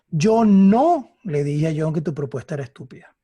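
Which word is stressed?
dije. The emphasis falls on the word dije. It was suggested rather than said outright. "lo sugerí"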